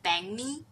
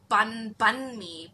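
First: The first syllable sounds like 'bang'. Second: The first syllable sounds like 'bun'. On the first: The speaker calls it right. "they pronounce it as bang mi" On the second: The speaker calls it wrong. "You will always read it as bun mi, but it's not bun mi"

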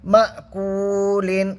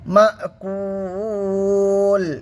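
First: It ends in -lin with a short vowel stretch. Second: It stops on l with a long vowel stretch. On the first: The reading continues without a stop. "অমাদ্দাকে এক আলিফ টান দিয়ে পড়বো।" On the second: The reader pauses at the verse end. "লামটা সাকিন করে দেবো। ... তিন আলিফ টান দিয়ে পড়তে হবে।"

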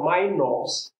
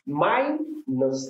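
First: The stress is on the second syllable. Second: The stress is on the first syllable. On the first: The speaker calls it wrong. "and not minus" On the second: The speaker calls it right. "Minus, the stress in the first level"

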